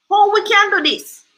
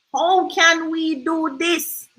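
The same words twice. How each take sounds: First: Said in the usual way. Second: Very slow thinking-aloud; slow, drawn-out question. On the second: Real, not acted. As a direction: stretch "How can we do this" slowly.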